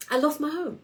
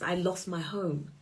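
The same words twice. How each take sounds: First: I LOST my home, pitched high and stressed on "lost"; "lost" lifted high and pressed in the repeat; emphatic repeat. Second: Said in the usual way. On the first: Real, not acted. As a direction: hit "lost" hard and high as it sinks in.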